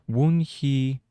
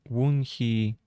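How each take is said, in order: Both takes have the same delivery.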